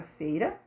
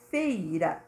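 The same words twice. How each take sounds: First: Said in the usual way. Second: "Feira" stretched into two beats; syllables separated. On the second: Shown as a demonstration. Teacher showing two separated syllables, split "Feira". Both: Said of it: "separada as duas sílabas".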